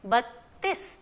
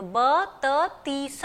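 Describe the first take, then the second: First: बत्तीस with the t doubled, bat-tees; joined tt in बत्तीस. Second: ब त तीस broken into separate sounds; the wrong way, ba ta tees; wrong split. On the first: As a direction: hold the t before tees. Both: Shown as a demonstration. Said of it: "ऐसे हम नहीं बोलते".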